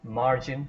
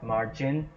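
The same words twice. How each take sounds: First: The stress is on the first syllable. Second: The stress is on the second syllable. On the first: The speaker calls it right. "So A gets a stress" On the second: The speaker calls it wrong. "not margin"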